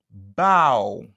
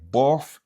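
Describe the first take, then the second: First: It ends in an open ow vowel. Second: It ends in an f sound. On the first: The speaker calls it right. "se kon sa l prononse" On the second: The speaker calls it wrong. "Ni se pa plof ou bien bof"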